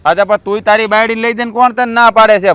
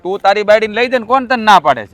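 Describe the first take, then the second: First: Raised voice; heated challenge; angry retort. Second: Raised, higher challenge; heated repeat; angry retort. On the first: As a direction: push back hard at the brother. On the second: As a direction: throw the question back at him. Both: Acted. Brothers quarrel over money.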